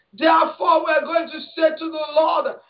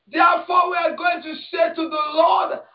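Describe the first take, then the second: Both takes have the same delivery.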